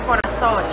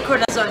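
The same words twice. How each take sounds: First: The middle consonant sounds like th. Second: The middle consonant sounds like z. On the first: The speaker calls it right. "So it's like T H" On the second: The speaker calls it wrong. "as in there's the letter Z"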